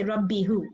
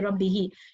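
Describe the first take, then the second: First: The word ends with an 'hoo' sound. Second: The word ends with an 'hee' sound. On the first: The speaker calls it wrong. "You don't say Rabbihu" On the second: The speaker calls it right. "You say Rabbihi"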